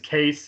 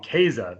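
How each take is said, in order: First: The name sounds like 'Case', with one syllable. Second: The name sounds like 'Kaiser', with two syllables. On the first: "or as Americans, Case" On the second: "the German pronunciation, I might even call him Kaiser"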